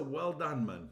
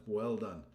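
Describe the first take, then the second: First: Said in the usual way. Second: Said again much lower; deep repeat. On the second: Real, not acted. To Peter, a much lower second well done. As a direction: drop the voice low for the repeat. Thanking member, repeats deeper.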